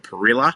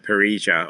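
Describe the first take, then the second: First: It is said with an Australian pronunciation. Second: It is said with a Latin American pronunciation. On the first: "as Australians love to call it" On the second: "depending on uh, where in, in Latin America you're from"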